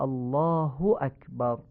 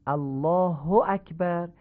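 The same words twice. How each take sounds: First: الله as "allaahu", short u; slow الله اکبر with Arabic u; "allaahu akbar" for الله اکبر, not o; Arabic damma. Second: الله as "allaaho", ending in o; slow الله اکبر with Persian o; Persian-style reading. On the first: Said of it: "هو نیست، هو". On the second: Teacher shows Persian-style reading first. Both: Shown as a demonstration.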